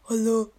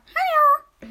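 First: It is said in a normal speaking voice. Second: It is said in a high, squeaky voice. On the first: This is how one's own voice sounds while speaking. "redest so" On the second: This is how one's own voice sounds on a recording. "Und das hört sich dann so an"

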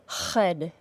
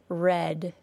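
First: The R has rough friction from the throat. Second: The R is smooth and continuous. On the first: The speaker calls it wrong. "if the back of your tongue is causing friction and a substantial vibration, as a fricative would" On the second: The speaker calls it right. "The sound is smooth and continuous"

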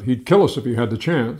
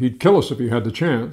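First: The word 'kill' gets the strongest stress. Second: The word 'kill' gets the strongest stress.

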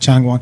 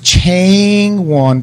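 First: The first vowel is a short A sound. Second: The first vowel is a long A sound. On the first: "that's a short A sound" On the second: "that would be a long A sound"

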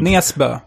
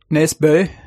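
First: The name is said in a Swedish accent. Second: The name is said in a Norwegian accent. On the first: "Näsbö, skulle jag säga" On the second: "Men hur säger du med norsk dialekt då?"

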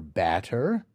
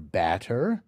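First: The vowel is an open short a sound. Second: The same.

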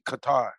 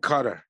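First: The name is said in an American way. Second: The name is said in a non-American way. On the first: The speaker calls it wrong. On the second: The speaker calls it right.

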